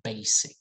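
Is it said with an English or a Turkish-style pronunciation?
English. It is said with an English pronunciation. The speaker calls it right. "it's basic"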